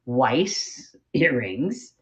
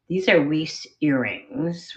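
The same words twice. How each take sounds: First: Weiss drawn out as "wice", rhyming with ice; very slow, deliberate Weiss with an eye vowel; careful corrected pronunciation. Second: Weiss said as "weece", rhyming with fleece; mistaken pronunciation. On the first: Shown as a demonstration. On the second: Real, not acted. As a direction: say Weiss with a long ee vowel. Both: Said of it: "I'm gonna say this right".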